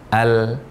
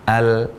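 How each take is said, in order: The two takes are said the same way.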